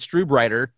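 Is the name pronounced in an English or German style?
English. The name is said with English-style sounds. The speaker calls it wrong. "I could say Strubreiter, but that sounds terrible"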